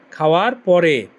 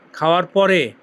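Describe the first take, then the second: No difference in how they are said.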